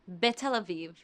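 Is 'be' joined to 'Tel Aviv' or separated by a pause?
joined. The words flow together with no pause. The speaker calls it right. "You don't pause between them"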